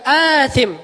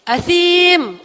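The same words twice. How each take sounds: First: "athim" said short, vowels unstretched; the wrong, short "athim". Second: "Athim" with a long I, said high. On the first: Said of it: "bukan athim". ("athim" pendek, tanpa panjang) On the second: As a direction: stretch the ya in "Athim". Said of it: "Allah ngomongnya gitu". ("Athim" dengan ya panjang) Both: Shown as a demonstration.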